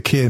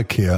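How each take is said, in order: First: "ikea" said ee-KAY-ah, the Swedish way; "ikea" with the Swedish ee-KAY-ah sounds; Swedish pronunciation. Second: "ikea" said eye-KEE-ah, the usual English way; "ikea" with the familiar British eye-KEE-ah sounds; English pronunciation. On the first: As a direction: say "ikea" as ee-KAY-ah, not eye-KEE-ah. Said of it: "Apparently, you have to call it ikea now". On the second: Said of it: "not ikea". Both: Shown as a demonstration.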